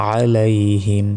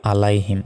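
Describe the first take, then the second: First: আলাইহিম opening on a squeezed throaty ain; throat-pressed ain. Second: আলাইহিম starting on a plain a, no ain; mispronunciation demo. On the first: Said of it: "গলায় চাপ দিয়ে আইন অক্ষর উচ্চারণ". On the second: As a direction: say আলাইহিম quickly without throat squeeze. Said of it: "আর এটা বলি". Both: Shown as a demonstration.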